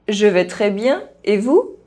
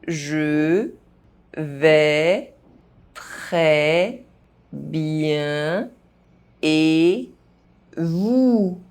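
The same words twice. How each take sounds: First: The phrase is spoken fast. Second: The phrase is spoken very slowly. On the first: "fast, as a native speaker would do" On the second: "very slowly"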